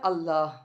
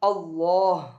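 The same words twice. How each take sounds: First: The L is said thin, soft and light. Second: The L is said thick, full and heavy. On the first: "ரொம்ப சாஃப்டா நம்ம வந்து உச்சரிக்கிறது" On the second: "போல்டா அல்லாஹ் அப்படி சொல்லி போல்டா உச்சரிக்கிறது"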